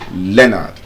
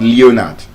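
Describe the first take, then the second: First: The first vowel is short. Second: The first vowel is long. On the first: The speaker calls it right. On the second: The speaker calls it wrong.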